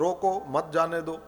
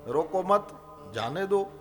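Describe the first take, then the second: First: There is a pause after the first word. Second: There is a pause after the second word. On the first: Stop them; do not let them go. "रोको के पास वो अल्प विराम कर दो" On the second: Do not stop them; let them go. "रोको मत के पास कर दो"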